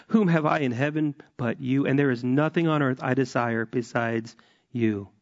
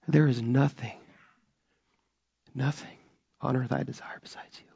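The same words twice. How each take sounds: First: Said in the usual way. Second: The words "nothing on earth" fall to a near-broken quiet; real emotion, quiet and held back; emotional hush. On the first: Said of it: "I'm gonna read twenty-five again". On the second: Real, not acted. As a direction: let the feeling choke the line down, softer. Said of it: "Do you know why I'm emotional about this?".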